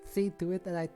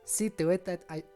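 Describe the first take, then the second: First: It is said with a lisp. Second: It is said in a Scottish accent. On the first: "I'm doing a lisp" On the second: "Now I'm doing the bad Scottish accent again"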